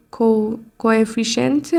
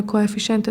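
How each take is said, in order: First: Slow, halting "کو-، کوافیشنت", restarting on the first syllable; hesitant try at the English word "کوافیشنت" with a false start; unsure pronunciation. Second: Said in the usual way. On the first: Shown as a demonstration. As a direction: sound out "کوافیشنت" slowly, as if checking each syllable. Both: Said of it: "اگه درست تلفظ کرده کوافیشنت درست".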